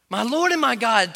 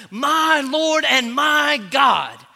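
First: Said in the usual way. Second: Louder, higher, very slow cry; exploding proclamation. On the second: Acted. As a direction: let it burst out of him. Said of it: "came exploding out of his mouth".

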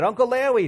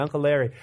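First: Put-on excited little kid's accent, "Larry" as "Lawwy"; high-pitched child accent with a w for the r's; kids' mixed accent. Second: Said in the usual way. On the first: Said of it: "their accent". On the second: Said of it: "that's what they call him".

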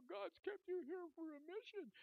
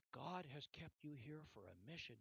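First: Very high, tearful retelling of a nurse; high mock-weepy voice; imitated crying. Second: Said in the usual way. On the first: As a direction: say it as if crying, pitched right up. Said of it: "she's crying now".

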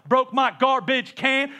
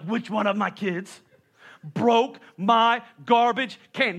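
First: Slow, long-drawn syllables, a bit louder; stretched vowels. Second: Slow, stretched-out syllables; drawn-out blaming. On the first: Shown as a demonstration. Preacher demoing the stretched complaint, slow and drawn out. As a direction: draw out "Broke my garbage can" with long vowels. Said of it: "your syllable super long". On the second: Retold or imitated. Dad blaming the kids over the can, slow and stretched. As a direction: stretch every vowel out long. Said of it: "that's how everything is prolongated".

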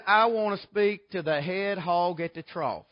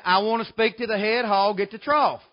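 First: Slow, deliberate caller's request; imitated caller. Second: Imitated caller, a touch more forceful; insistent repeated request. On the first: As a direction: lightly voice a man on the phone. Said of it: "this fella says". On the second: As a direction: lightly voice a caller repeating himself firmly. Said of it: "He said it again".

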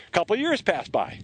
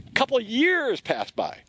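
First: Said in the usual way. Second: "A couple years pass by" drawn out slowly and higher; slow, higher emphatic repeat. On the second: Shown as a demonstration. Preacher repeating to stress how long David waited, slow and higher. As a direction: lean on "years" and let time drag.

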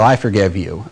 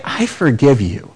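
First: Quick offhand "I forgive you", dropped low and soft; casual brush-off. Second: Softer, measured "I forgive you", each word meant; the right way to forgive; sincere, weighty forgiveness. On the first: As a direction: toss it away like it costs nothing. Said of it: "we don't deny sin and say". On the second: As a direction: say it like it costs you something. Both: Shown as a demonstration.

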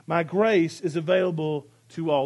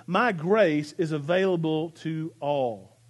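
First: Said in the usual way. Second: "my grace is available to all" drawn out slowly, each word given weight; slow and deliberate. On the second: Shown as a demonstration. Pastor asking the congregation to listen, slowly drawn out. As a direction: linger on every word of the promise. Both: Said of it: "listen to this".

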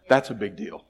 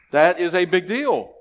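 First: Said in the usual way. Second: "That is a big deal" slow and loud, landing on "deal"; a louder, slower restatement that lands hard on "deal"; emphatic repeat. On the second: Real, not acted. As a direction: hammer home "big deal".

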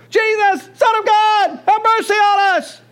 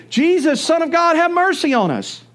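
First: Desperate high shout for mercy, much higher and louder; crying out louder. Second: Raised, pleading call for mercy, pitched higher. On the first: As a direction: yell over the crowd so Jesus must hear. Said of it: "start crying out louder". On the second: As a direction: call out to Jesus as he passes, a bit higher. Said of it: "they began to say". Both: Acted.

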